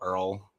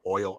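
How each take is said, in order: First: It is said with an er vowel, like earl. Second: It is said with a plain oi vowel.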